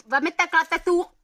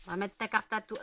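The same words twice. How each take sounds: First: Higher, louder teasing echo of the slip; mock repeat. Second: Said in the usual way. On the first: Teasing her friend's slip, a high, louder echo. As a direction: tease the friend's slip in a raised voice.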